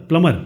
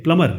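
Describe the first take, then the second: No difference in how they are said.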